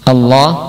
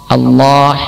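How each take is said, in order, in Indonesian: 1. Bunyi h di akhir ringan dan biasa saja. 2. Bunyi h di akhir adalah bunyi tenggorokan yang kasar. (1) "Pada lafaz Allah" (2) "membaca ha dengan ha"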